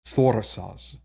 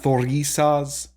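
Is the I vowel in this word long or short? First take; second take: short; long. First: The I vowel is said short. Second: The I vowel is said long. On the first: The speaker calls it right. "It's actually kind of a short I" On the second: The speaker calls it wrong. "So it's not thorisas"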